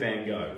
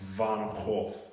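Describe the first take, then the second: First: The name is said with an American pronunciation. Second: The name is said with a Dutch pronunciation. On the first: The speaker calls it wrong. "that's the American way of saying Van Gogh" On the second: The speaker calls it right. "I think it's Dutch. The correct way to say it"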